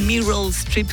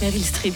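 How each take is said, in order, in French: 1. Le nom est prononcé avec un accent américain. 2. Le nom est prononcé avec un accent français.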